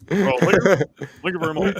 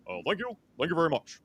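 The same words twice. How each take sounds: First: Slurred [name] thank you, loud; sloppy drunk [name]. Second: Softer, smoother [name] thank you; a cleaner [name] croon; proper [name] voice. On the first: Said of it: "drunk [name] voice". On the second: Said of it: "more proper drunk [name]". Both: Retold or imitated.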